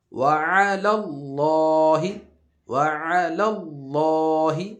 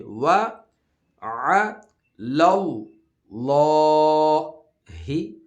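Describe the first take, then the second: First: وَعَلَى اللَّهِ chanted together; sung, intone the phrase joined; sung, joined recitation. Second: وَعَلَى اللَّهِ slow, thick لام; heavy lam. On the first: Teacher reciting it joined for pupils, chanted. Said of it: "ملا کے میں پڑھ رہا ہوں اب،". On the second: Teacher showing the heavy lam in the verse, slow and loud. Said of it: "موٹا پڑھیں گے،". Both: Shown as a demonstration.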